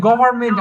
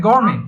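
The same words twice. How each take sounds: First: গভর্নমেন্ট in three syllables, "go-bar-men"; local pronunciation. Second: গভর্নমেন্ট squeezed to "gor-men"; British-style pronunciation. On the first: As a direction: keep the middle "bar" in গভর্নমেন্ট. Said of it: "আমরা বলি না গভর্নমেন্ট". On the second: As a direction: drop the middle syllable and final t of গভর্নমেন্ট. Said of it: "ওরা বলে কি". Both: Shown as a demonstration.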